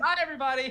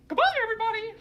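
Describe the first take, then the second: First: It is said in his normal voice. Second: It is said in a Mickey Mouse voice.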